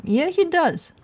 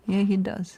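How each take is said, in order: First: Higher and louder, delighted agreement; excited. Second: Said in the usual way. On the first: Real, not acted. Owner to viewers about her dog, excited and much louder. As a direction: burst out happily like he's proud of the dog.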